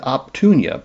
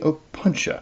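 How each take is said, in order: First: The t sound comes right after the first p. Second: The t sound comes after the n sound. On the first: The speaker calls it wrong. "I thought it said Optunia" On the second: The speaker calls it right. "but it's actually Opuntia"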